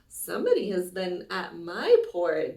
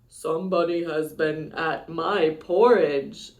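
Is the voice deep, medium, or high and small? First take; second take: medium; deep. First: A medium-pitched middle bear voice. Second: A deep, rough, gruff bear voice.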